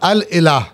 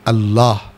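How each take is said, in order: First: The article and noun are said apart, fully. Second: The article and noun merge into one contracted word. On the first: This is the original form of the word. "असल में बना था अल इलाह" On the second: This is the form that frequent, fast use produced. "तेज़ तेज़ बोलने में इसकी शक्ल क्या बन गई?"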